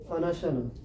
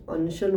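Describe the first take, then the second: First: अनशन with every vowel, a-na-sha-na; अनशन sounded in four syllables, a-na-sha-na; correct full anashan. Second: अनशन squeezed to two syllables, an-shan; अनशन dropping the inner vowels as an-shan; wrong clipped anshan. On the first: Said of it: "ये है अनशन". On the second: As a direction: say अनशन the common mistaken way, an-shan. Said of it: "इसको भूलवश अनशन बोल देते हैं". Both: Shown as a demonstration.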